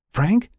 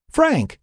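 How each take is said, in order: First: High, rising call of a name; questioning call. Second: Very high, falling cry of a name; urgent call. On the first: Lynn checks on an unanswering Frank, questioning call. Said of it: "Lynn repeated". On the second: Lynn gets no answer from Frank, urgent call. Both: A narrator's reading.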